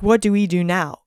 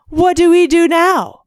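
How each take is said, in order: First: Said in the usual way. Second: High, whiny mock damsel; mock helpless wife. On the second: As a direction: imitate the helpless ex-wife, higher. Mocking helpless ex-wife in movie.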